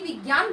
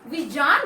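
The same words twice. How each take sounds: First: The middle consonant is a hard g sound. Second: The middle consonant is a soft j sound. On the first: The speaker calls it wrong. "ना कि विज्ञान बोलते हैं" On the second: The speaker calls it right. "हमेशा विज्ञान को विज्ञान बोलते हैं"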